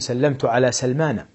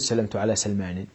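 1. ينتهي الاسم بحركة 'a'. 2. ينتهي الاسم بحركة 'i'. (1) "أقول" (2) "ولا يجوز"

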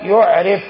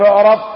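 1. صوت الراء يتبعه حركة 'i'. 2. صوت الراء يتبعه حركة 'a'. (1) "مبني المعلوم بكسر الراء" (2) "بالمبني المجهول من المعرفة"

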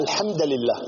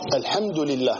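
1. ينتهي «الحمد» بحركة مختلفة. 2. ينتهي «الحمد» بالضمة. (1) "هنا خطأ، لكن المعنى لم يتغير" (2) "هي الحمد بالضم"

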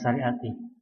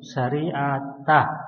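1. Kata itu diakhiri dengan vokal i. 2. Kata itu diakhiri dengan vokal a. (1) "bukan syariati" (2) "Maka naatnya juga mansub syariatah"

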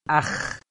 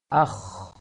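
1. Diucapkan dengan mulut terbuka lebar. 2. Diucapkan dengan bibir sedikit membulat. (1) "Jangan akh, jangan dibuka mulutnya lebar" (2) "tapi agak membulat"

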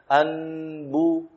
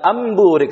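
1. Bunyi n yang jelas diucapkan sebelum b. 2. n berubah menjadi bunyi m sebelum b. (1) "kita baca nun sesuai dengan makhrajnya" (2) "Lebih mudah dengan mengkalkannya saja"

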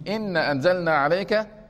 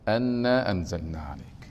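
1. تبدأ الكلمة الأولى بالحركة i. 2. تبدأ الكلمة الأولى بالحركة a. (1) "لو كسرت همزة إن" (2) "يجب أن تفتح الهمزة"

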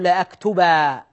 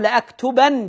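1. تنتهي الكلمة بحرف المد الطويل 'a'. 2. تنتهي الكلمة بصوت 'n'. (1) "لكن إذا وقفت أقول لأكتبا" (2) "هنا أنطقها نون"

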